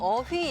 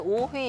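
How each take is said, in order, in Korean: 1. 첫 모음은 평순 'eo' 소리예요. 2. 첫 모음은 원순 'o' 소리예요. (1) "어휘 얘기하시는데" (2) "오휘 이렇게 얘기하셔가지고"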